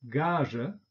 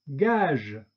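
First: 'Gage' said the German way, with a final schwa, ɡaʒə; German 'Gage' with a trailing schwa; German-style. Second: 'gage.' said the French way, ɡaʒ with a released voiced ending; French 'gage.' with no schwa. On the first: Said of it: "deutsche Aussprache ... Schwarlaut". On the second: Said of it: "französischen Aussprache mit Detente". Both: Shown as a demonstration.

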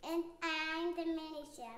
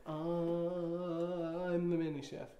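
First: Quiet, unsure little answer; hesitant. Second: Slow, drawn-out mock hesitant line; imitating hesitation. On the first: Real, not acted. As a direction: say it with a bit of doubt. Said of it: "a little bit of hesitation". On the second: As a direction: stretch it out, teasing her doubt. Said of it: "where you were like".

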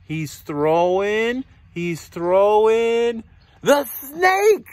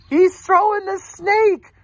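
First: Slow, stretched build to louder ending; suspenseful reveal. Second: High, loud amazed announcement; excited exclamation. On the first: Reader reveals the elephant's idea, slow building suspense. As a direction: draw out "throwing", then lift the surprise. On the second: Reader repeats the big reveal to children, high loud amazement. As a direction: proclaim it high, stretching the words. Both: A narrator's reading.

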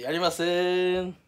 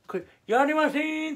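First: Said in the usual way. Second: "やりません" said again noticeably higher; higher replay of the refusal. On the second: Shown as a demonstration. Showing viewers how his refusal looked, higher voice. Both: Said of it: "これ、やりませんって".

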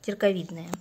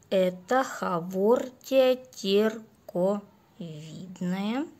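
First: Said in the usual way. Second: Slow, dragging zombie drone. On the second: Real, not acted. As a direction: drawl it out like a zombie. (медленный голос зомби) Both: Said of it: "Что-то говорю как зомби".

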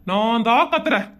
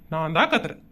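First: Low voice at normal volume; resigned admission. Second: Very low, soft admission; meek backing down. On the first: Husband taking blame from wife, resigned. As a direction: repeat the surrender audibly, pitched low. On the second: Husband giving in to angry wife, meekly quiet. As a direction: take the blame under your voice. Husband backs down, takes the blame. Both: Acted.

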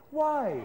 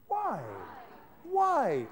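First: A higher, surprised why. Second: Wrong why. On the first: Teacher modelling the surprised why for students. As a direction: ask why as if caught off guard. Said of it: "the whole point about the why is you go". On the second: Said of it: "No, sorry, no, I've got it wrong". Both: Shown as a demonstration.

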